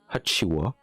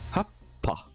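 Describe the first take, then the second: First: It is said hachi-wa, ending in wa. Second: It is said happa, ending in pa. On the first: "C'est le wa" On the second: "ça va garder, pour certains, le bas et le pas"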